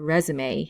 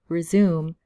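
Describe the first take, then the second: First: The final e is sounded. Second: The final e is silent. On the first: The speaker calls it right. "we actually should pronounce it like E" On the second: The speaker calls it wrong. "be careful not to pronounce this as resume"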